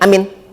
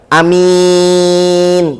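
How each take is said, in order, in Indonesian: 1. Kedua vokal dibaca pendek. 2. Hanya vokal kedua yang dipanjangkan. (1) "Yang nggak boleh pendek sama pendek" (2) "hamzahnya pendek, mimnya panjang"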